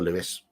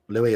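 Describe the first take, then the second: First: The name is said the English way. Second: The name is said the French way. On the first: "Lewis, I would imagine" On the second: "Louis would be French"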